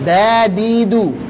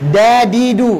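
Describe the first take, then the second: First: The d is made at the upper front teeth. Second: The d is made far back, near the palate. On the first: The speaker calls it right. "yang betul" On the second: The speaker calls it wrong. "kan gitu seringnya kan? ... Dari langit-langit atas"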